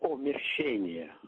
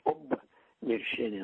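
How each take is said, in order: First: The word starts with a bare 'o' sound. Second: The word starts with an 'ob' sound.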